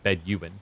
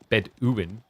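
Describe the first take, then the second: First: The middle sounds like 'you', as in 'bed you'. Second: The middle sounds like 'doo', as in food. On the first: "you're saying Bedouin. And I really do want to know which bed you in" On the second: "If you if your intent was to say it's Bed Bedouin, then it should have been like double O"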